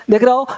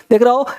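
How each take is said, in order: Both takes have the same delivery.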